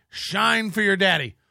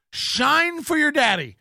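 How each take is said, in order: First: Said in the usual way. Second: High, slow mocking taunt; taunting, stretched and higher. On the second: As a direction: sneer it at a lackey.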